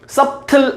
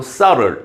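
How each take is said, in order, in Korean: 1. 가운데 b 소리는 발음돼요. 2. 가운데 b 소리는 묵음이에요. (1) "subtle 아니고" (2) "이때 B는 묵음이에요. subtle 이렇게"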